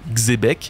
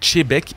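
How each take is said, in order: First: The name begins with a ks sound. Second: The name begins with a sh sound. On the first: The speaker calls it wrong. "et non Xebec" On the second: The speaker calls it right. "je prononce Chebec"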